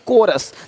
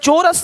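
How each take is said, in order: First: The word begins with a k sound. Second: The word begins with a ch sound. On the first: The speaker calls it right. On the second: The speaker calls it wrong. "चोरस नहीं"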